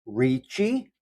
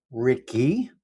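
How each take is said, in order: First: Ricci said with a ch sound, REE-chee; Italian Ricci, soft ch in the middle; Italian pronunciation. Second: Ricky said with a hard k sound, RIK-ee; anglicized Ricky, hard k; Ricky pronunciation. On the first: Reading the viewer's name, Ricci the Italian way. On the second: Reading the viewer's name, Ricky with a hard k. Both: Shown as a demonstration. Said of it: "you can say it two different ways".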